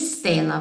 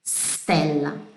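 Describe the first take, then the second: First: An extra i vowel is added before the st. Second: The word starts directly with st, no added vowel. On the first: The speaker calls it wrong. "Não vai ser Stella" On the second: The speaker calls it right. "vai ser Stella"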